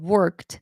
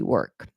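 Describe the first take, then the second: First: The final t sound is clearly heard. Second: The final t sound is left off. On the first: The speaker calls it right. "Instead of worked" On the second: The speaker calls it wrong. "they forget to say the ed"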